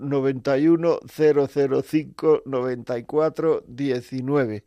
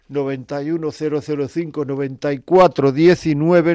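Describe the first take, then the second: First: The number is said slowly. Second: The number is said fast.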